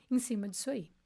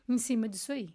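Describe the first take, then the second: No difference in how they are said.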